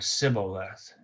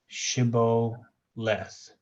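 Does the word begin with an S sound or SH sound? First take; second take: S; SH. First: The word begins with a plain S sound. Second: The word begins with an SH sound. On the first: The speaker calls it wrong. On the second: The speaker calls it right.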